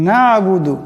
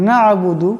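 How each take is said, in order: The two takes are said the same way.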